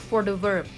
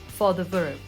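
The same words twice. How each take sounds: The two takes are said the same way.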